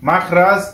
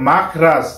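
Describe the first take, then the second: Both takes have the same delivery.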